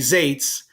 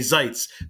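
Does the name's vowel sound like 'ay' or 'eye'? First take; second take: ay; eye. First: The vowel sounds like 'ay' in 'day'. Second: The vowel sounds like 'eye' in 'bite'. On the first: The speaker calls it wrong. "don't say Zates" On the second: The speaker calls it right. "that's how you pronounce his name"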